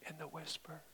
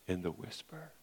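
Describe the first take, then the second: First: Softer, breathy whisper of "whisper"; a true whisper to show God's still voice. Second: Quiet. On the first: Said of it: "performs whisper after naming it". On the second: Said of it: "drops voice after loud build". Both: Shown as a demonstration.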